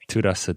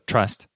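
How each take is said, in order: First: It is said as four syllables, Korean style. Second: It is said as one syllable, English style.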